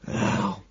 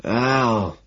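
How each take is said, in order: First: Very soft, nearly whispered; barely audible. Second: Weak name, slightly raised; a little louder. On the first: Homeless man gives his name, almost inaudibly. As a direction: mumble the name under the breath. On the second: Homeless man repeats his name when urged, a little louder. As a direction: say the name a bit more audibly. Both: A narrator's reading. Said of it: "a little louder".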